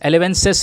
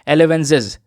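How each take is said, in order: First: The middle consonant is a hissing s sound. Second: The middle consonant is a buzzing z sound. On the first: The speaker calls it wrong. "एलेवेंसिस नहीं" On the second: The speaker calls it right. "इसको pronounce करेंगे एलेवेंजिस के तौर पर"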